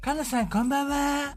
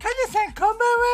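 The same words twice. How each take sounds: First: It is said flatly, with low energy. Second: It is said brightly, with high energy.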